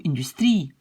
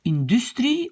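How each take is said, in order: First: Second "industrie" stressed on the last long IE; accent sur la finale. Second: First "industrie" stressed before the last syllable, inDUStrie; accent déplacé. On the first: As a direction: lean on the final TRIE of "industrie". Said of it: "savoir où est l'accent". (« industrie » accentué sur TRIE, allongé) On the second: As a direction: punch DUS in "industrie", light ending. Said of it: "si on ne prononce pas". (« industrie » accentué sur DUS) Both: Shown as a demonstration.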